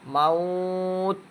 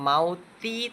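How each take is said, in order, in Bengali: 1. শব্দটি শেষ হয় খালি t ব্যঞ্জনধ্বনিতে। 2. শব্দটি শেষ হয় চূড়ান্ত i স্বরধ্বনিতে। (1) "অক্ফ করতে হবে" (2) "আর মাউতি থাকবে না"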